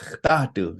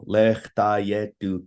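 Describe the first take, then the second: First: The word is shortened with syllables run together. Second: Each syllable is carefully and separately enunciated. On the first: The speaker calls it right. "that's just like the everyday enunciation" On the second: The speaker calls it wrong. "I really enunciated each syllable"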